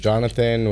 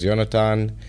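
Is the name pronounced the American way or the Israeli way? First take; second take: American; Israeli. First: The name is said with an American English pronunciation. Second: The name is said with an Israeli Hebrew pronunciation. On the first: This is what people in the US call him. "when I land in the U S, it's always Jonathan" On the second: This is what people in Tel Aviv call him. "land in Tel Aviv, it's always Jonathan"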